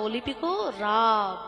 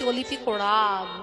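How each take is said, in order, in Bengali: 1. শেষ শব্দটি সরাসরি 'r' ধ্বনি দিয়ে শুরু হয়। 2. শেষ শব্দটি 'o' ধ্বনি দিয়ে শুরু হয়। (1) "বাবা বলছেন না বাবা অলিপিক রাব" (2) "আমি বলছি অলিপিক ওড়াব"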